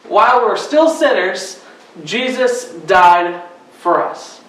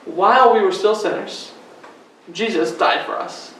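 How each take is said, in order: First: It is said loudly and excitedly. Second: It is said calmly at normal volume.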